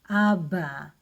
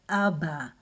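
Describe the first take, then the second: First: The middle consonant is a B sound. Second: The middle consonant is a B sound.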